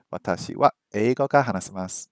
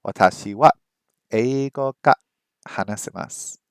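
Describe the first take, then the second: First: Quick, smooth read of Watashi wa eigo ga hanasemasu; faster read. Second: Slow halting read. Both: Shown as a demonstration. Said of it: "I need to say it faster".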